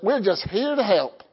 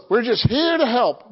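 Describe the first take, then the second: First: Attempted Australian accent, slipping toward Southern; badly faked Australian cartoon accent. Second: Said in the usual way. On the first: Preacher imitating a cartoon slogan, wobbly Australian accent. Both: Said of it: "with an Australian accent".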